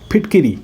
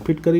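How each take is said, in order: First: A short 'i' is heard between k and r. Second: No vowel is heard between k and r. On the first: The speaker calls it right. "फिटकिरी होता है" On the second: The speaker calls it wrong. "फिटकरी नहीं"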